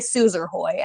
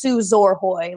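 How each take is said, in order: First: The middle syllable sounds like 'er'. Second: The middle syllable sounds like 'or'. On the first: The speaker calls it wrong. "they say Suzerhoy" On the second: The speaker calls it right. "it's Suzorhoy"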